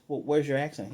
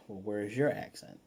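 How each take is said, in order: First: Imitating her question, lightly pressed on WHERE'S; retold challenge. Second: Retold comeback. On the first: She questions Pietro about his accent, lightly retold challenge. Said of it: "And she says". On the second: Pietro throws her accent question back, understated retort. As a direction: turn the question back with weight on "your". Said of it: "He says".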